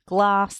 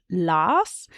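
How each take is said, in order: First: Said in the usual way. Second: "las" said slowly with the g dropped; child simplifying glass; cluster reduced. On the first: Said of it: "instead of glass". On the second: Shown as a demonstration. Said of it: "they might say las".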